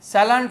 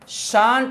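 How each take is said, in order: First: It is said as two syllables, sal-ent. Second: It is said as one syllable, shant. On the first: The speaker calls it wrong. "सैलेंट नहीं" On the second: The speaker calls it right. "Short form ही शांट होता है"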